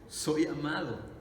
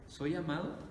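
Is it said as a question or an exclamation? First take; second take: exclamation; question. First: It is said as a confident exclamation. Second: It is said as a rising question.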